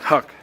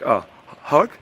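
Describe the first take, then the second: First: It sounds firm, like a command. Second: It sounds hesitant, like asking permission.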